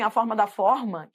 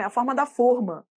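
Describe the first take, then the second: First: Reading it the wrong way, stressing da; misreading stress. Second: Da said with a falling tune; the corrected take with da falling; correct reading. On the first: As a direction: stress falling on da. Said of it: "de início ela pode ler assim". (ênfase errada no da) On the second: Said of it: "No contexto dá pra ver". (leitura correta com queda no da) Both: Shown as a demonstration.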